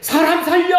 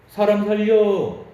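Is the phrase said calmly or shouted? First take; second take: shouted; calmly. First: It is shouted loudly and urgently. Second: It is said in a calm, ordinary voice. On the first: It sounds like a real emergency. "소리를 지른다면" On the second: It does not sound like an emergency. "이런 목소리로 얘기하면"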